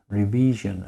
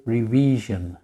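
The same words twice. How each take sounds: The two takes are said the same way.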